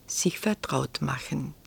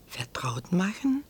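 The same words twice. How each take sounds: First: Said in the usual way. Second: "Vertraut machen" softly echoed as a rising question. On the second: A narrator's reading. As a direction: repeat "Vertraut machen" as a soft, puzzled question. Prinz fragt das Wort nach. ("Vertraut machen" leise fragend nachgesprochen, Stimme steigt)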